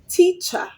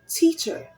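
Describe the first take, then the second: First: The final vowel is plain, without R coloring. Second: The final vowel is pulled in by the R. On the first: The speaker calls it wrong. "Instead of saying" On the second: The speaker calls it right. "you say"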